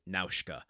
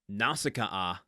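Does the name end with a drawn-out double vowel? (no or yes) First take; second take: no; yes. First: The name is short, without a long final vowel. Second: The name ends with a repeated double vowel. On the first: This is how the name sounds in the original film. "the Japanese original language pronounces it Naushka" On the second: This is how the name is said in this text. "having to repeat the double vowel at the end of her name"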